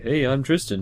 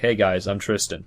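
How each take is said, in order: First: It is said in a higher voice. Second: It is said in a deeper voice.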